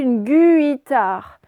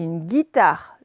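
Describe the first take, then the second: First: The U after the G is pronounced aloud. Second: The U after the G is not pronounced. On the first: The speaker calls it wrong. "Est-ce que je dis une guitare? Non" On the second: The speaker calls it right. "Le U, il est muet"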